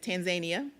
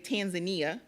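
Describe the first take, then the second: First: It is pronounced the local, native way. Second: It is pronounced the common Western way. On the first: The speaker calls it right. "the appropriate pronunci- pronunciation is" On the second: The speaker calls it wrong. "a lot of people in the Western Hemisphere say"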